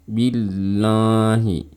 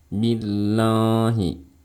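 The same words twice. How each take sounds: The two takes are said the same way.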